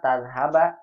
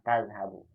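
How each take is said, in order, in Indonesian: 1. Kata ini diakhiri dengan vokal 'a' pendek. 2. Kata ini diakhiri dengan vokal 'u' pendek. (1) "Salah kalau tadhaba" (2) "mudhari' dengan dhammah"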